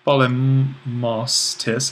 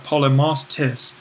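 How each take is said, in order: First: Polemos tis drawn out slowly and run together as one word; slowed as one word. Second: Said in the usual way. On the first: Shown as a demonstration. Teacher shows students the merged word, slow and careful. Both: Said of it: "if we were to think of this as one word".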